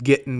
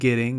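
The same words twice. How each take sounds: First: The ending is said without the final g. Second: The ending is said with the final g. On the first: "I leave G's off the end of my words" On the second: "rather than getting"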